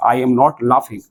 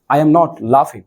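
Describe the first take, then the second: First: 1 slow dictation. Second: Said in the usual way. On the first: Shown as a demonstration. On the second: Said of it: "ING, तो I am not laughing".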